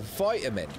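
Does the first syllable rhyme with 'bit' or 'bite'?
bite. The first syllable has a long 'vie' vowel. The speaker calls it right. "You say it's a vitamin"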